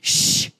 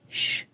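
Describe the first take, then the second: First: The shush sounds harsh and rude. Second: The shush sounds soft and gentle.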